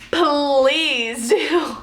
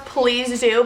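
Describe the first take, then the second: First: "please do" with PLEASE drawn long; pleading emphasis. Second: Said in the usual way. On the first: Retold or imitated. Patient asking nurse to stay, "please" long and emphatic. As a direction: stretch out "please" into a plea. Second plea to nurse, stretched.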